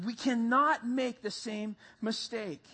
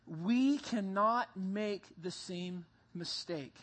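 First: Slow and firmer, stress on cannot; emphatic repeat. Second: Slow, low and measured, each word weighed; preacher warns the church, slow and grave; slow warning. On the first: Pastor drives the warning home, slow and emphatic. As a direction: press hard on cannot as he says it again. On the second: Pastor warns his congregation, slow and weighty. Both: Shown as a demonstration. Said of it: "Guys, hear that".

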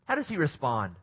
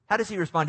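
First: Said in the usual way. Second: How does he respond? asked higher, pressing the listeners; emphatic question. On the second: Shown as a demonstration. Preacher repeating the question to the congregation, emphatic. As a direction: repeat the question to make them think.

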